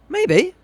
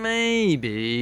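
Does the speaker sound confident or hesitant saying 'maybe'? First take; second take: confident; hesitant. First: It is said plainly and fairly confidently. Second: It is said slowly and hesitantly after a pause. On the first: The chance is fairly high. "we might vary the tone to adjust the percentage" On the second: The chance is very low. "very low"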